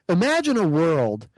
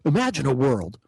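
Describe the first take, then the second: First: It is said in an ordinary speaking voice. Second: It is said in a deep, dramatic trailer voice.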